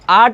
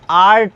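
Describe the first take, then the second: First: The r sound is silent. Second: The r sound is pronounced. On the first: The speaker calls it right. "शुद्ध उच्चारण जो होता है इसका आर्ट होता है" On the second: The speaker calls it wrong. "ना कि आर्ट होता है"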